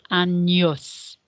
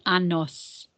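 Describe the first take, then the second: First: "años" with a ny sound, an-yos. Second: "anos" with a plain n, a-nos; plain n sound. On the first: Teacher shows what the accent does to N, "años" said an-yos. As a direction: say "años" slowly, the n softened into ny. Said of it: "changes the pronunciation from a N to a N". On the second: Teacher shows the word without the accent, "anos" said with plain n. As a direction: say "anos" with no y glide after the n. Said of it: "if we didn't have that accent". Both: Shown as a demonstration.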